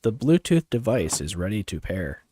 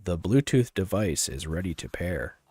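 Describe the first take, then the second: First: Robot voice. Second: Slightly deeper device announcement. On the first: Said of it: "I'll use my deeper voice". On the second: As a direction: speaker prompt pitched a little down. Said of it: "here, I'll use my deeper voice". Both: Shown as a demonstration.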